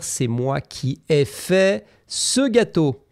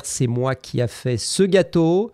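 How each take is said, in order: First: "qui ai" said clearly as "é"; correct form. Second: "qui a" as the mistake; "qui a" with plain "a", the wrong auxiliary; wrong form. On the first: Teacher modelling the right "qui ai fait". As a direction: mark "ai" in "qui ai fait" distinctly. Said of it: "tu dois dire". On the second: Teacher quoting the wrong "qui a fait". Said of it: "Tu ne peux pas dire". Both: Shown as a demonstration.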